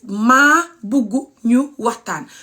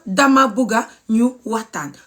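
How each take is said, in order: First: "Ma bugu ñu waxtaan" said slowly with short MA and U-ending bugu; slow local Wolof, "Ma bugu ñu waxtaan"; local Gambian Wolof. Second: "Dama buga ñu waxtaan" with full DA-MA and A-ending buga; fancy Wolof form, "Dama buga ñu waxtaan"; fancy Gambian Wolof. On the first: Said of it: "I speak Gambian local Wolof". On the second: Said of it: "Gambian fancy Wolof". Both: Shown as a demonstration.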